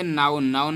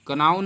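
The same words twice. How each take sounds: First: नाउन with the k silent, as naun; teacher gives the correct reading नाउन with silent k; right reading known. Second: कनाउन said fast, sounding the k as ka-naun; teacher rattles off the wrong reading कनाउन with k; wrong reading known. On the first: सही उच्चारण नाउन, क मौन. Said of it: "कनाउन नहीं पढ़ेंगे". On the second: गलत उच्चारण कनाउन, क के साथ. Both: Shown as a demonstration.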